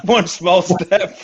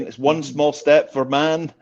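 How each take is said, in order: First: Slowed, laughing through the words; laughing repeat. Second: Slow, measured Armstrong line; slow famous quote. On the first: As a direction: repeat the line while cracking up. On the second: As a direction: draw it out like a moon landing quote. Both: Shown as a demonstration.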